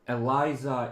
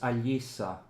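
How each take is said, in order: First: The name is pronounced the German way. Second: The name is pronounced the Russian way. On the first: "Eliza is closer to how Germans pronounce it" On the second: "in Russian it's Alisa"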